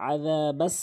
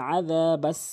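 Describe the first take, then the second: Both takes have the same delivery.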